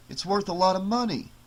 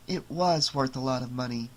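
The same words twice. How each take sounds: First: Said in the usual way. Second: "was" leaned on, the rest softer; stress on was. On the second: Acted. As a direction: correct him by hitting "was". Wife corrects husband's tense.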